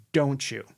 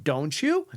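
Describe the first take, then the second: First: "don't you" falling at the end; command tonality. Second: "don't you" with the voice going up; questioning tonality. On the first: Trainer showing the effective tag question, commanding fall on "don't you". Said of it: "tone of the voice goes down". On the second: Trainer showing what not to do, questioning rise on "don't you". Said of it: "So it's not". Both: Shown as a demonstration.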